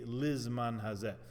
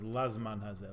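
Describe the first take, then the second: First: The first word's first vowel is an 'ee' sound. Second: The first word's first vowel is an 'ah' sound. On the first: This follows the ruling of legal authorities. "with a chirik under the lamed" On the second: This follows common custom and the written prayer book. "the custom of many ... is to recite the bracha with a patach"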